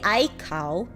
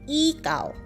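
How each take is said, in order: First: The first syllable sounds like eye. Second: The first syllable sounds like ee. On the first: The speaker calls it wrong. "you don't say I cow" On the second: The speaker calls it right. "You pronounce this as e cow"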